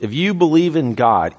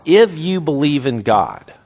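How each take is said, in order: First: Said in the usual way. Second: "if" punched at the front, slow phrase; emphatic, slow condition with "if" stressed. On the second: Real, not acted. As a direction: lean hard on "if", then take the rest slowly. Preacher repeats condition for emphasis.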